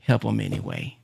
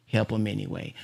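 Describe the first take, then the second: First: A quiet voice of conscience; gentle, lowered plea to help; soft heart voice. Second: A soft, fading repeat of the plea; fading heart voice. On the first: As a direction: lower and softer, like the heart speaking. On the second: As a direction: lower and much softer, nearly fading out. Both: Retold or imitated. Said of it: "But my heart says".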